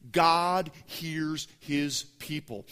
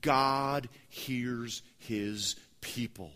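First: "God hears his people" slow and louder; slow emphatic point. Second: "God hears his people" said very slowly; slow emphatic point. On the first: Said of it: "Number two". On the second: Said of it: "rule number three". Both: Real, not acted.

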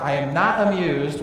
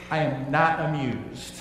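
First: "not" leaned on, a touch louder; stressing not. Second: Slow, dry, unamused; a teacher deadpanning at an unruly class, slowly; dry teacher annoyance. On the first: Teacher to misbehaving students, louder with "not" stressed. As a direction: press "not" harder as you repeat it. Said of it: "He's really negating the opposite". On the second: Teacher to misbehaving students, slow dry deadpan. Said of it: "the teacher wants to say that he's annoyed". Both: Retold or imitated.

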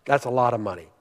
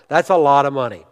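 First: Hushed repeat. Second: Said in the usual way. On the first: Real, not acted. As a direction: lower and much softer. Repeats aside lower, for effect.

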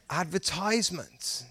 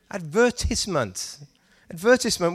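First: ADVERTISEMENT as ad-ver-TIZE-ment; soft American "ad-ver-TIZE-ment". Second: ADVERTISEMENT as ad-VER-tis-ment; British "ad-VER-tiss-ment". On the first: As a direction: put "ties" inside Advertisement. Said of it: "Do you know how I would say it". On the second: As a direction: stress the VER in advertisement, short i after. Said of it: "how I would say it when I read that". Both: Shown as a demonstration.

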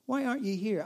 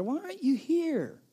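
First: Tired echo. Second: High, pleading cry; desperate plea. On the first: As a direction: let the plea fall away, half-resigned. Repeated plea, falling back. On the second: The worried believer cries to the absent Lord, high desperate plea. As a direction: beg him to come, voice straining up. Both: Pretend.

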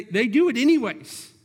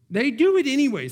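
First: Said in the usual way. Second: Preacher stressing Israel's choice, higher and louder; higher, louder emphatic repeat. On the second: Acted. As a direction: lift it, they do it anyways.

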